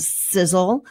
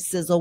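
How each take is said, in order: First: The s sounds are harsh and hissing. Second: The s sounds are soft and controlled. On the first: The speaker calls it wrong. "without it going sizzle" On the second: The speaker calls it right. "Learning how to say the sizzle without it going"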